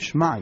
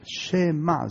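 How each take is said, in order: First: The first vowel is dropped, said as 'shma'. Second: A short vowel follows the sh, said as 'shema'. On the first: The speaker calls it wrong. "לא אומרים שמע ישראל" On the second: The speaker calls it right. "זה שבע נע"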